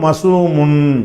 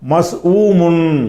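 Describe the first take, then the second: First: The word runs together without a break. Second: The word has a break after the first syllable. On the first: The speaker calls it right. "சொல்லாமல் மசூமுன்" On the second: The speaker calls it wrong. "மஸ் ஊமுன்னு சொல்லாமல்"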